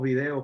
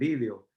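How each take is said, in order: First: The stress is on the second syllable. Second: The stress is on the first syllable. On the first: This is the form used in Puerto Rico. "nosotros decimos video" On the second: This is the form used in other countries. "en otros países dicen vídeo"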